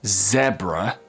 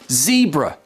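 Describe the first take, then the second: First: It is said with a British pronunciation. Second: It is said with an American pronunciation. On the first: "So in British English, it's called a zebra" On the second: "In American English"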